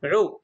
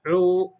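First: عو as a brief 'u'; one beat on عو, no lengthening; short vowel. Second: عو with a long, held 'oo'; lengthened vowel. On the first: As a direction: say عو short and quick. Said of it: "صوت قصير". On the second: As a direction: draw out the vowel of عو. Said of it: "فمده فأصبح عو". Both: Shown as a demonstration.

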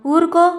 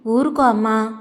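First: Higher and louder insistent ఊరుకో; urgent hush. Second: Calm it down, father to grieving wife; gentle soothing. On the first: Father pressing the sobbing woman to stop, urgent. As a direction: push ఊరుకో out high and loud to stop her. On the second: Father quieting the crying young wife, gently. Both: A narrator's reading. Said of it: "గొంతు స్వాధీనంలోకి తెచ్చుకొని".

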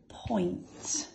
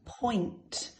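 First: Teacher whispers Point to the class; whispered. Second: Said in the usual way. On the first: Shown as a demonstration. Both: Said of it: "We'll do one more".

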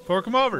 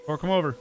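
First: Higher, louder, pushy demand; demanding character voice. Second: Said in the usual way. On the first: Shown as a demonstration. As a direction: hold out your hand and demand them. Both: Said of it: "Fork 'em over".

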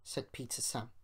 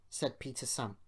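Both takes have the same delivery.

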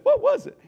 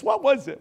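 First: "What was it?" asked far higher and louder, with a sharp jump up; rising rhetorical question. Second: Said in the usual way. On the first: Shown as a demonstration. Pastor repeats his question to the congregation, far higher.

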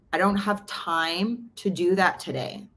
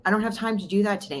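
First: Slow, drawn-out brush-off; slow retold excuse. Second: Rattled off quickly; fast repeated excuse. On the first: To a friend, slowly stating the excuse. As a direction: let each word of the excuse drag. Retelling her own first response. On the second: Retold or imitated. To a friend, repeating the excuse fast. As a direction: fire off the same excuse in a rush.

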